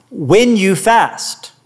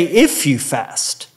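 First: WHEN leaned on, slow and drawn out; slow, weighty stress on when. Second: If said slow, softer and lower; slow, hushed if as the wrong version; stress on IF. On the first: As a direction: hit the word when as a certainty. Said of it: "He didn't say, "If you fast". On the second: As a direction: set if against when, softly. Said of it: "He didn't say". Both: Shown as a demonstration.

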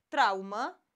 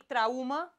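First: Traumă stressed correctly on TRAU, slow and clear. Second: Traumă with the stress on the wrong syllable, said slowly. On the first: Teacher showing pupils the right stress on traumă. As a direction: lean on the first syllable of traumă. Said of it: "Zic traumă". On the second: Teacher showing pupils the wrong stress on traumă. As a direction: drag out traumă, mis-stressed on purpose. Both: Shown as a demonstration.

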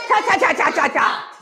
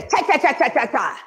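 First: Forceful cha cha chant. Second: Plain cha chant. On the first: Preacher demonstrating the chant with force for the church. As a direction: spit each cha out hard. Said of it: "Say it with some fence". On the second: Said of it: "everybody say". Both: Shown as a demonstration.

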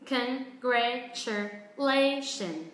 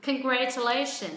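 First: Congratulation drawn out very slowly; slow drill of Congratulation; very slow model. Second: Congratulation faster and firmer; quicker drill of Congratulation; speeding up. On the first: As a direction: say Congratulation at a crawl. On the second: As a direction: pick up the pace on Congratulation. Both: Shown as a demonstration. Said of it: "bắt đầu tăng tốc".

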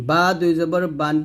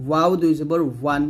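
First: বা with both lips shut for b, ending বান; closed-lip bā. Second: ওয়াও as w with rounded, open lips; rounded wāw. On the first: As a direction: press lips together on বা and বান. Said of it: "বা দুই ঠোঁট মিল করে". (বা দুই ঠোঁট মিলিয়ে) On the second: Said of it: "ওয়াও দুই ঠোঁট গোল করে". (ওয়াও ঠোঁট গোল করে) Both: Shown as a demonstration.

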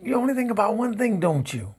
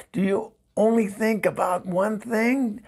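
First: High, quick accusing statement; exasperated accusation. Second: Exasperated question. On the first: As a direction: throw it back fast as an accusation. Same words turned into an accusation. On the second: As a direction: ask it pitched up, fed up with the ex. Exasperated question to pestering ex-husband. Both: Acted.

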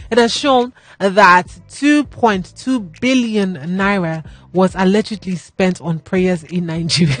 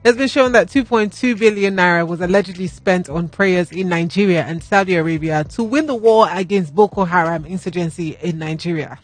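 First: Slow, holding back laughter; trying not to laugh. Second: Composed, serious restart; pulling yourself together. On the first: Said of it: "my mouth is doing happy". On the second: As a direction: straight news read, steadied. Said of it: "let me compose myself". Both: Real, not acted.

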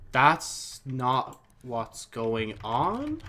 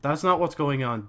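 First: "That's not what's going on?" drawn out slowly, ending in a rise on "on"; slow questioning rise. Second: Said in the usual way. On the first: Shown as a demonstration.

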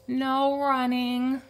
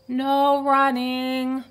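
First: Slow, high librarian call; stretched-out warning call; calling after. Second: Loud, slow warning call; loud, drawn-out reminder; calling after. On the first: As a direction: call a reminder after him. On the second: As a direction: call the rule after him. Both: A narrator's reading. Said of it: "Miss Merriweather called after him".

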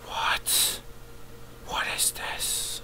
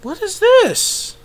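First: Slow, hushed whisper; baffled whisper. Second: Slow question in a very high voice; high-pitched bafflement. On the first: Viewer puzzled by a new trailer, slow whisper. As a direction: whisper it slowly in bewilderment. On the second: Viewer puzzled by a new trailer, high squeak. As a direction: squeak it out slowly in bewilderment. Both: Real, not acted.

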